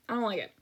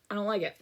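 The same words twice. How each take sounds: The two takes are said the same way.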